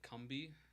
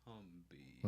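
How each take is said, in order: First: It is said at normal speed. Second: It is said slowly.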